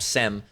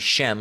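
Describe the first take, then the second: First: The word begins with an s sound. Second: The word begins with an sh sound. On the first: The speaker calls it wrong. "they pronounce it wrong" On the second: The speaker calls it right. "It should be Shem"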